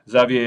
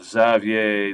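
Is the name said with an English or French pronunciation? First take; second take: French; English. First: The name is said with French pronunciation. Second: The name is said with English pronunciation.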